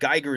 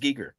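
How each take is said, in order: First: The name sounds like the Geiger in Geiger counter. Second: The name sounds different from Geiger in Geiger counter. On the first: The speaker calls it wrong. "I thought Geiger as well because I, I think of like a Geiger counter" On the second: The speaker calls it right. "he says Giger"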